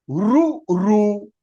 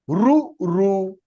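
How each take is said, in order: No difference in how they are said.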